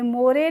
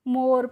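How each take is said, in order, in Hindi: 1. यह अतिरिक्त 'e' स्वर के साथ खत्म होता है। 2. यह बिना किसी अतिरिक्त अंतिम स्वर के खत्म होता है। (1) "मोरे नहीं पढ़ेंगे" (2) "मोर पढ़ेंगे"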